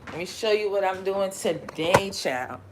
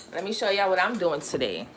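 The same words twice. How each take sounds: First: Put-on playful Southern accent. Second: Said in the usual way. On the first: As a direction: repeat it with a put-on Southern lilt. Repeats line in pretended Southern accent.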